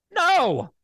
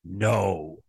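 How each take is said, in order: First: High, sharp, emphatic NO; insistent refusal. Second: Low, measured "No"; firm refusal. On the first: Real, not acted. Host tells spineless commissioners to refuse, insistent high refusal. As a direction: punch "No" high as an outburst. Demands they say the word no. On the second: Shown as a demonstration. Host shows commissioners how to say the word no, low firm refusal. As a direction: drop the pitch way down on a single firm "No".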